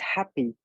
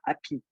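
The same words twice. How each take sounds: First: It has an English accent with a breathy H. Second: It has a French accent without the H.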